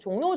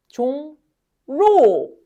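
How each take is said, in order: First: The syllables are joined, with an N sound. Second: The syllables are separate, with an L-like sound. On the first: The speaker calls it right. "이렇게 발음하겠죠" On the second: The speaker calls it wrong. "종, 로 이렇게 발음하는 사람이 있을까요? 아니죠"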